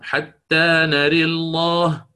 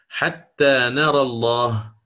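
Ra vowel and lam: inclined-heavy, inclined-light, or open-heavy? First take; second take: inclined-heavy; open-heavy. First: Vowel leans toward e, with a heavy, dark l. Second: Open vowel after r, with a heavy, dark l. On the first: "الإمالة مع تغليظ اللام من لفظ الجلالة" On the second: "الفتح، والفتح لا يكون إلا مع التغليظ"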